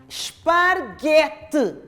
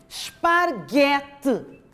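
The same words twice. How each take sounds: No difference in how they are said.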